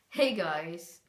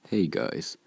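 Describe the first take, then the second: First: It is his usual YouTube voice. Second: It is his other, so-called real voice.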